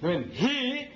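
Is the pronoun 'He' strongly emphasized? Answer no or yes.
yes. The pronoun He carries clear extra emphasis.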